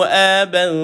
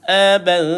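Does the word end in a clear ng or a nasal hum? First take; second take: nasal hum; nasal hum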